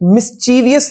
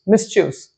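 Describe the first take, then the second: First: The word is said with four syllables. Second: The word is said with three syllables. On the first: The speaker calls it wrong. "मिस्चीवियस नहीं होता ये" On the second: The speaker calls it right. "इसकी pronunciation भी होती है मिस्चियस"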